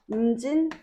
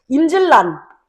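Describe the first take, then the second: First: The second syllable ends with an n sound. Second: The second syllable ends with an l sound. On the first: The speaker calls it right. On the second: The speaker calls it wrong.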